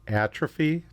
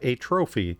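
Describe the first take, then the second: First: The stress is on the first syllable. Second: It sounds like 'a trophy', stressing the second syllable. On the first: The speaker calls it right. "So atrophy" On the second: The speaker calls it wrong. "not atrophy. That's what you put up on your mantle"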